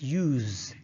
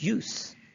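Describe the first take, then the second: First: It is pronounced the way the verb is. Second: It is pronounced the way the noun is. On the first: The speaker calls it wrong. "we don't pronounce it as use" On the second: The speaker calls it right. "If it is a noun, ... rather we call it use"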